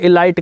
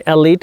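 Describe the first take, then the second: First: The second vowel sounds like 'eye'. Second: The second vowel sounds like 'ee'. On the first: The speaker calls it wrong. "मुझे इसे एलाइट कहने की बुरी आदत है" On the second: The speaker calls it right. "असल में एलीट है"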